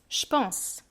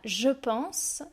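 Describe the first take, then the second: First: The vowel is dropped and j sounds like ch. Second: The vowel of je is fully pronounced.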